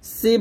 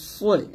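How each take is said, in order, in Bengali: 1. s ধ্বনিটি হালকা ও পাতলা। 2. s ধ্বনিটি ভারী ও মোটা। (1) "সি বলবেন না, সদের উচ্চারণ সিনের মতো যেন না হয়ে যায়।" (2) "আর এটা হবে সদ জের সই এরকম।"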